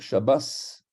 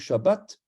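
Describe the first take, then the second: First: The word ends with an s sound. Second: The word ends with a t sound. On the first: "on va dire Shabbas, ... parce que le tav se prononce S" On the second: "on ne va pas dire Shabbat"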